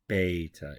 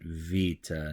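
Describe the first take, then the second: First: The word begins with a B sound. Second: The word begins with a V sound. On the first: The speaker calls it wrong. "not beta" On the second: The speaker calls it right. "we're going to pronounce it vita"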